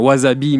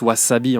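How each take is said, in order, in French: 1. Il est prononcé à la française. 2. Il est prononcé à la japonaise.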